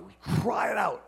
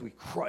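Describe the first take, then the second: First: Raised, higher-pitched emphatic cry. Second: Said in the usual way. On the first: Shown as a demonstration. Preacher stressing what the scripture says, crying out. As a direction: push CRY out like a call. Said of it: "it's a cry". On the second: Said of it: "It says we cry".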